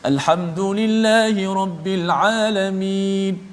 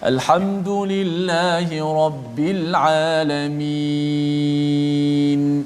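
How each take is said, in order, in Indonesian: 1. Dibaca dengan cepat, vokal akhirnya lebih pendek. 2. Dibaca dengan tempo sedang, vokal akhirnya lebih panjang. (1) "nak baca laju sikit ... dengan hadar, dengan cepat sedikit" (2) "empat harakat sebab kita baca dengan biasa"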